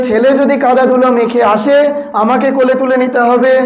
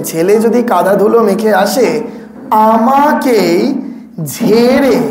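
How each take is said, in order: First: Said in the usual way. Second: Slow down on আমাকেই, then land hard on ঝেড়ে; stress on ঝেড়ে. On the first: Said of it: "যদি বলতেন". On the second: Shown as a demonstration. Monk showing the audience the key word, stress on ঝেড়ে. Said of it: "এই শব্দটার উপর কখনো জোর দিয়েছেন".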